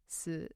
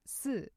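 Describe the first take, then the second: First: It is said with the tone meaning death. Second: It is said with the tone meaning four. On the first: The word means death. "sounds like the word for death, si" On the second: The word means the number four. "let me invoke my tones, where four, si"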